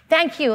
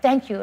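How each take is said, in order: First: Loud, high cry of thanks; overjoyed mother yelling her thanks; yelled thanks. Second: A milder, mock yelled thank you; a lighter retold yell of thanks; yelled thanks again. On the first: Retold or imitated. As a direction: shout it out to the whole room. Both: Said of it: "I yelled out".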